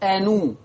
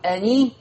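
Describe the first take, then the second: First: The n is followed by a u vowel. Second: The n is followed by an i vowel. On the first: This is the reading with damma on the nun. "ورش هيضم النون" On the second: This is the reading with kasra on the nun. "بدل ما يقول أني"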